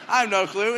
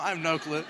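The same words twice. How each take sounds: First: Louder repeat. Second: Said in the usual way. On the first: Retold or imitated.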